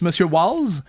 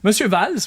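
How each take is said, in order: First: The name begins with a W sound. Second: The name begins with a V sound. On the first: It follows the English pronunciation. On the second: It follows the German pronunciation.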